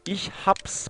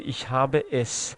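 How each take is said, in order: First: The verb and pronoun merge into one syllable. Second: Each word is said separately and in full. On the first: The speaker calls it right. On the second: The speaker calls it wrong. "منتها اینطور نمیگن"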